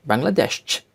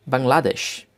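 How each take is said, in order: First: "Bangladesh" in German, ending in a strong 'desch'; German-style "Bangladesh" with a crisp last syllable; German pronunciation. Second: Said in the usual way. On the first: Shown as a demonstration. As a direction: say "Bangladesh" as bang-la-DESCH. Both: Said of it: "names of countries with German accent".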